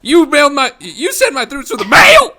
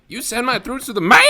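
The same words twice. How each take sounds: First: High squeaky voice breaking up on mail; voice cracking. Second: High squeaky voice breaking on mail; voice cracking. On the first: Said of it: "his voice, like, cracks". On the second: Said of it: "I just love the way he says mail". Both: Retold or imitated.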